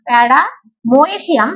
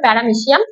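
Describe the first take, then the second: First: The middle syllable is pronounced 'moy'. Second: The middle syllable is pronounced 'meh'. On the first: The speaker calls it wrong. "উচ্চারণটা যদি বানান অনুযায়ী করিস তাহলে মোয়েসিয়াম হয়" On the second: The speaker calls it right. "কিন্তু actually হলো প্যারামেসিয়াম"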